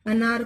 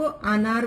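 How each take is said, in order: First: Said in the usual way. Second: अनार with a long "aa" at the start; mispronounced long vowel. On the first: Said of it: "बोला जाए तो". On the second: Shown as a demonstration. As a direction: stretch the first vowel of अनार into "aa". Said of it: "अनार बोला जाए तो".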